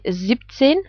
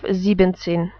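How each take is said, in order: First: The word is said with two syllables. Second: The word is said with three syllables. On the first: The speaker calls it right. "The ending en is cut off from sieben" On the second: The speaker calls it wrong. "instead of"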